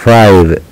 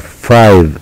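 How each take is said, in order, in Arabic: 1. الحرف المتحرك طويل، مثل 'eye'. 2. الحرف المتحرك طويل، مثل 'eye'.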